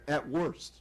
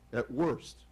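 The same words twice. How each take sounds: The two takes are said the same way.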